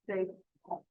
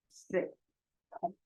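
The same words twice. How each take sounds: First: 水桶 joined, 水 rising in second tone; tone change. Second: 水 and 桶 apart, each in third tone; separate third tones. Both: Shown as a demonstration. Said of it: "change the first word into second tone".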